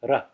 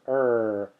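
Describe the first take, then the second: First: The r is a quick flip of the tongue. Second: The r is a smooth English r, no tongue flip. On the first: The speaker calls it right. "It's a flip of the tongue" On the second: The speaker calls it wrong. "as the English R in car"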